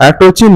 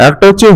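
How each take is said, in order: The two takes are said the same way.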